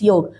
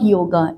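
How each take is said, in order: First: The word ends on the 'g' consonant. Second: The word ends with an added 'a' vowel. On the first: The original form of the word. The speaker calls it right. "It's योग" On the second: An English-influenced form of the word. The speaker calls it wrong. "It's not योगा"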